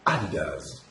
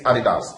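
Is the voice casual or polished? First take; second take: polished; casual. First: It is said in a trained, polished announcer voice. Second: It is said plainly in an everyday voice. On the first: The speaker calls it right. "there's a difference in my voice. Now that's training" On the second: The speaker calls it wrong. "you don't just say Adidas"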